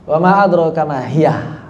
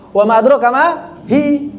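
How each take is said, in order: First: The last word is lengthened with an added ending. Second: The last word is a short hi. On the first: An extra ha is added to the word. "Itu tambahan, haknya hak tambahan" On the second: This is the original form of the word.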